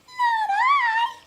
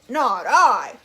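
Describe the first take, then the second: First: It is said in a squeaky mouse voice. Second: It is said in a gruff dog voice.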